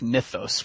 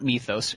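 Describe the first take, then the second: First: The first vowel is a short 'i' sound. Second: The first vowel is a long 'ee' sound. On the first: The speaker calls it right. "It's mythos with a soft I" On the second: The speaker calls it wrong. "not mythos with a hard E"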